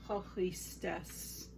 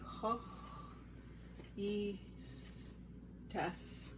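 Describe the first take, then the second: First: The phrase is said at a normal pace. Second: The phrase is said slowly, syllable by syllable.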